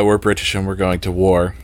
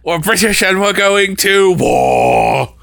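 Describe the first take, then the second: First: Said in the usual way. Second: High, slow mock battle cry; rousing war cry. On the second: Comic performing a favorite line, rousing slow war cry. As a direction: belt it out, drawing out the last word.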